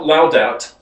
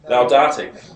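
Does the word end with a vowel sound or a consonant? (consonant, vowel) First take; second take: consonant; vowel. First: The word ends on the t sound. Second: The word ends with a final vowel sound. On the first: The speaker calls it wrong. "Not Laudat" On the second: The speaker calls it right.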